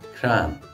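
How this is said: The vowel sounds like 'a', the Ulster way. "if you go up north to Ulster, you will hear it pronounced"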